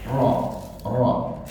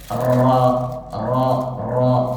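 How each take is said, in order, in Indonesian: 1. R itu ketukan tunggal, tidak digulung. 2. R digulung dengan banyak getaran. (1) "tidak terdengar getaran, cuman sekali aja" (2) "Enggak yang Ra Ra Ra. Itu sudah berapa banyak getaran itu"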